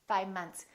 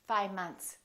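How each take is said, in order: First: The V sound is dropped. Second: The same.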